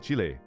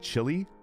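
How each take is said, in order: First: It is said with a Spanish-style pronunciation. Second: It is said with an English-style pronunciation. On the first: The speaker calls it right. "taught all of us to say it properly" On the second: The speaker calls it wrong. "everybody tried to call it Chile"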